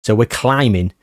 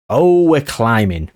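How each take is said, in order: First: Said in the usual way. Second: Slow, drawn-out, pleased Oh; pleased climbing. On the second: Shown as a demonstration. Gamer relishing the league climb, slow and pleased. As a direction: savour it, a touch louder.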